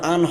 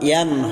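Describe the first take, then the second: First: The syllable starts with a plain vowel. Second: The syllable starts with a y sound. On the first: The speaker calls it wrong. "ইয়া দু জবর আন হয় না" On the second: The speaker calls it right. "ইয়া দু জবর ইয়ান হয়"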